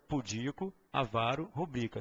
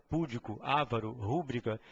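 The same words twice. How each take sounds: First: Pudico, avaro, rubrica stressed on DI, VA, BRI; spaced-out list, middle stress in pudico, avaro, rubrica; correct pronunciation. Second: Púdico, avaro, rúbrica all stressed on first syllable; front-stress avaro as Ávaro, like púdico and rúbrica; common mispronunciation. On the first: Teacher gives forms to memorize, middle-stressed pudico, avaro, rubrica. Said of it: "Então, o certo é". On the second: Teacher shows the tempting mistake, front-stressing púdico, avaro, rúbrica. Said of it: "você tende a te-, a pronunciar". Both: Shown as a demonstration.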